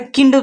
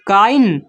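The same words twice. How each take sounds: First: "किंड" said with a short i, like kinned; wrong reading of kind. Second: "काइंड" said with the long ai glide, rhyming with mind; correct reading of kind. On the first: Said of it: "pronunciation गलत हो जा रहा". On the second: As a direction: read "काइंड" with the ai diphthong as the right way. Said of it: "इसको हम काइंड पढ़ते हैं". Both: Shown as a demonstration.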